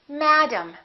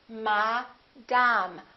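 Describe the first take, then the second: First: The first syllable is louder; the second is reduced. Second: Both syllables have the same full vowel. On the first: The speaker calls it right. "this A is going to be completely different from this A" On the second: The speaker calls it wrong. "In some languages, each vowel is pronounced the same way"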